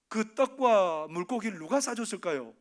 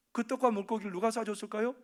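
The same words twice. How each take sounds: First: 누가 pushed out loud, falling at the end; stress on 누가. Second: 떡과 lifted, the question rising at the end; stress on 떡과. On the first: Preacher asking the congregation, stress on 누가. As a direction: lean on 누가 and let the question drop. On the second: Preacher asking the congregation again, stress on 떡과. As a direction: lean on 떡과 and let the question rise. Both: Shown as a demonstration. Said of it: "asked twice, different stress".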